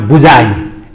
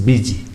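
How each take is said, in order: First: The first vowel is not an 'i' sound. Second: The first vowel is an 'i' sound. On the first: The speaker calls it wrong. "It's not buzai" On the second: The speaker calls it right. "it's a busy. same U become E in busy"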